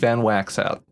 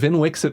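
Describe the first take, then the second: First: The name starts with 'Van' and has 'a' vowels. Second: The name starts with 'Vin' and has 'i' vowels. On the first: Someone else preferred this pronunciation. "the person who wanted it to be Van Waxout" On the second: This is the official pronunciation. "that's the canon pronunciation"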